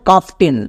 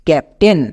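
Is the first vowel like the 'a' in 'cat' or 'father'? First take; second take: father; cat. First: The first vowel is like the a in father. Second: The first vowel is like the a in cat. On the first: The speaker calls it wrong. "Not কাফটেন" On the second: The speaker calls it right. "আমরা উচ্চারণ করবো ক্যাপ্টেন"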